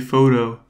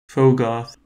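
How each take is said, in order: First: The G and H are silent. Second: The G and H are sounded.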